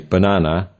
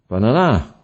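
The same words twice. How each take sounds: First: The stress is on the second syllable. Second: The stress is on the third syllable. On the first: The speaker calls it right. "We say banana" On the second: The speaker calls it wrong. "or banana"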